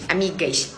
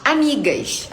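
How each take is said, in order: First: Amigas dropped low and soft, muttered. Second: Amigas jumped up high in a sarcastic tone. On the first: Telling her followers about her friends, a low muttered amigas. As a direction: say amigas low and quiet like a dark aside. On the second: Telling her followers about her friends, a high sarcastic amigas. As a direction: throw amigas up high, mocking the word. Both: Retold or imitated.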